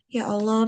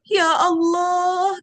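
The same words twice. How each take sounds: First: It is said softly and calmly. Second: It is said in an overdone, dramatic way.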